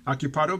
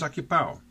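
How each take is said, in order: First: The d before the final vowel is pronounced. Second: The d is dropped, ending like 'wow'.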